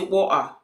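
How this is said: It is said in a London street accent. The speaker calls it wrong. "people that live in London. They say water"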